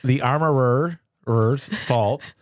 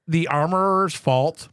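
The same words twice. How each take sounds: First: "armorer's" stretched slowly with repeated R syllables; exaggerated extra Rs. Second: "armorer's" with an accidental extra R; extra R slip. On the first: Shown as a demonstration. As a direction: deliberately overdo it as "armorer-er-er's". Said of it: "I do add extra R's". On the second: Real, not acted. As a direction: slightly overdo the R sounds in "armorer's". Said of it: "I added an extra R on that".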